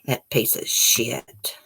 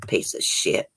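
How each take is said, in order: First: Drawn-out contemptuous curse, voiced; slow voiced curse, a bit softer; slow disgusted curse. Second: Disgusted whispered curse under the breath; breathy whispered insult, barely audible. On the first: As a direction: drag out every word in contempt. Repeats curse, slower. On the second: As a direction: hiss it out in disgust, unvoiced. Reacting to the abuse story. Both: Real, not acted.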